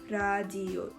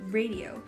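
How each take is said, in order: First: The word begins with a sound between L and R. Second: The word begins with a clear English R. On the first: "it's pronounced like radio" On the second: "in English, the word radio"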